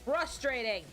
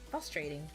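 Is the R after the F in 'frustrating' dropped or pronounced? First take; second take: pronounced; dropped. First: The R after the F is clearly sounded. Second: The R after the F is left out.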